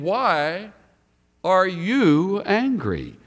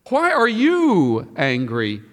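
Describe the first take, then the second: First: The stress falls on the last word. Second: The stress falls on the pronoun. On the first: The question asks why there is anger at all. The speaker calls it wrong. "We've often put the emphasis on the last word" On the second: The listener has no reason to be angry. The speaker calls it right. "I think the emphasis is on the pronoun"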